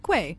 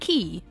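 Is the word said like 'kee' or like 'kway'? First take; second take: kway; kee. First: The word begins with a 'kw' sound. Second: The word sounds like 'key' with no 'w'. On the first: "Is it Quay?" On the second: "Or is it Key?"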